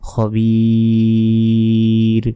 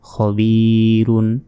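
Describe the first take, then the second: First: The word stops on a bare final consonant. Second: The word ends with a final -un syllable. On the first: The reader pauses at this word. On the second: The reading continues without stopping.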